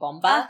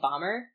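First: It is said with a Japanese-style accent. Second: It is said with a plain English accent.

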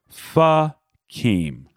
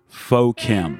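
First: The first word has an 'uh' vowel. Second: The first word has an 'oh' vowel. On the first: The speaker calls it right. "in Vietnamese, it has the sound of our short U" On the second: The speaker calls it wrong. "these words look to most Missourians like Pho Kim"

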